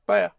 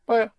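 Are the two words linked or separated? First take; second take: linked; linked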